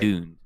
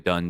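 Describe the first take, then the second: First: The vowel is said long. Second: The vowel is said short. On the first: "it makes it a long sound ... that's how you're supposed to pronounce it" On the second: "most people will say Dund anyway"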